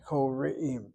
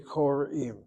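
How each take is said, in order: First: A short vowel is sounded right after the r. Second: The r closes the syllable with no vowel. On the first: The speaker calls it right. "it's a shva that has a sound" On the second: The speaker calls it wrong. "They literally will close the syllable after the resh"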